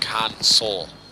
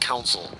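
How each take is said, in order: First: The word is said like 'console'. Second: The word is said like 'council'. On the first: The speaker calls it right. "I said it right that time" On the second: The speaker calls it wrong. "not council. I know, I said it wrong the other game"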